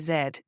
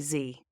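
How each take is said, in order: First: The letter is said the British way, 'zed'. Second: The letter is said the American way, 'zee'.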